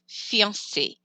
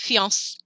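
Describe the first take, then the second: First: The final vowel sound is pronounced. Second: The final vowel sound is dropped. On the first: The speaker calls it right. "That A on the end gets pronounced" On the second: The speaker calls it wrong. "If you forget it, then that person would just be fiance"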